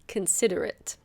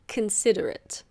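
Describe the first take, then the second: First: The O is reduced to a schwa. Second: The O is reduced to a schwa.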